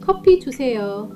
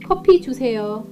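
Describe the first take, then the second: Both takes have the same delivery.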